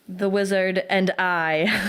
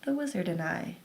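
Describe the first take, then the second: First: It is spoken at a moderate volume. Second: It is spoken at a soft volume.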